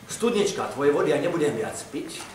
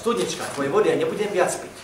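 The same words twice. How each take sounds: First: The s sounds are pronounced normally. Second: The s sounds are pronounced with a defect. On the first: The speaker calls it right. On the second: The speaker calls it wrong.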